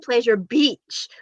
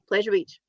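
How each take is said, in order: First: The word 'Beach' is heavily over-enunciated. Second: The word 'Beach' is said plainly, without emphasis. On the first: It sounds suggestive. "You over enunciate the beach part, so it's like" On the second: It sounds like an ordinary place name. "Whereas we're all just like"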